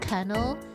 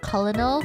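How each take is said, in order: First: It is said as two syllables, like kernel. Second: It is said as three syllables, co-lo-nel. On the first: The speaker calls it right. "for colonel" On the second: The speaker calls it wrong. "I used to always say colonel"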